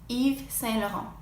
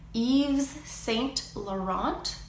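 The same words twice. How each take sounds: First: The final T sound is silent. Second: The final T sound is pronounced.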